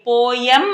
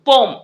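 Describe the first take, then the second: First: The word is said with two syllables. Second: The word is said with one syllable. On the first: The speaker calls it wrong. "పోయం అనకూడదు" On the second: The speaker calls it right. "పోమ్ అనాలి"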